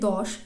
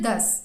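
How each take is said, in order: First: The word ends with an 'sh' sound. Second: The word ends with an 's' sound. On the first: This is the Sanskrit form. "যেটি আমরা উচ্চারণ করি দশ তালিবস্য" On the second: This is the Hindi form. "সেটি কিন্তু হিন্দিতে দশ"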